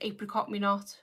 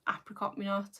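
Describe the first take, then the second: First: Apricot is said with a British pronunciation. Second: Apricot is said with an American pronunciation. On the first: "our way of saying it" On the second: "their way of saying it"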